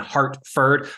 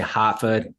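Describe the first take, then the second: First: The r sound after the vowel is pronounced. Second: The r sound after the vowel is dropped. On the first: "instead of saying" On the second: "We'll drop our r's"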